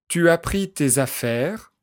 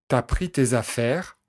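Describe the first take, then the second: First: The pronoun tu is said in full. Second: The pronoun is shortened to t' before as. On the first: This is the standard form. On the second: This is casual everyday speech.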